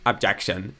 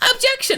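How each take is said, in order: First: It is said calmly, without shouting. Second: It is shouted loudly and forcefully.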